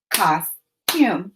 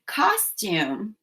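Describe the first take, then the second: First: "Costume" broken into cos, pause, tume; chopped syllables. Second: Said in the usual way. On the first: Shown as a demonstration. Teacher showing where the word splits, "Costume" chopped in two. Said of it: "chop the syllables in costume". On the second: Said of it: "chop the two syllables".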